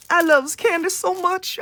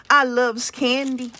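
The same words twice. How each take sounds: First: Put-on higher, cutesy baby talk; playful kiddie voice about candy. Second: Said in the usual way. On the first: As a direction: gush it like a little kid. Repeats candy line, put-on voice.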